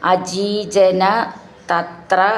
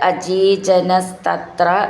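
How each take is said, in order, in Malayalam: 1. വാക്കുകൾ വേറെ വേറെയായി ചൊല്ലുന്നു, ചേർക്കുന്നില്ല. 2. വാക്കുകൾ ചേർത്ത് ഒറ്റ തുടർച്ചയായി ചൊല്ലുന്നു.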